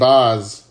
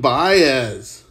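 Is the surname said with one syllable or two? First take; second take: one; two. First: The surname is said with one syllable, Baz. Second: The surname is said with two syllables, Ba-ez. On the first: The speaker calls it right. "Or Shane Baz" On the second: The speaker calls it wrong. "I thought they pronounced it Baez"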